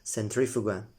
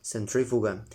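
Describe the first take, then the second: The two takes are said the same way.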